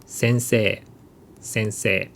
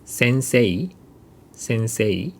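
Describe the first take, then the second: First: "sensei" ending in one long e, falling. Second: "sensei" ending in a clear e-i glide, rising; "sensei" with two vowels, e then i; sensei with final i. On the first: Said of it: "becomes long e sound". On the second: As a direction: sound the i at the end of "sensei". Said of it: "So instead of saying". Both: Shown as a demonstration.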